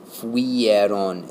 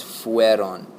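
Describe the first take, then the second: First: "fuieron" with an extra i before the e; mispronounced fuieron. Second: Slow "fueron", "fue" as one syllable like fweh; correct fueron. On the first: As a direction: say "fuieron" in three beats, fu-i-eron. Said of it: "this is not fuieron". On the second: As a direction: say "fueron" slowly, with no i before the e. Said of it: "It's fueron". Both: Shown as a demonstration.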